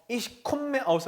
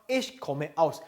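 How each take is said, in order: First: Komme as "kom-me", the m held long; wrong double-m pronunciation. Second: Komme as "ko-me", open first syllable, one m; correct single-m pronunciation. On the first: Teacher shows what not to say, komme with a doubled m. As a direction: close the first syllable of komme on a long m. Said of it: "하지 마세요. 그렇게 읽지 않습니다". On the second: Teacher models the right phrase, komme with a single short m. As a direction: say komme without lingering on the m. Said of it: "ich komme aus 하지 마세요". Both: Shown as a demonstration.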